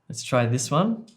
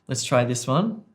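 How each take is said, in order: Both takes have the same delivery.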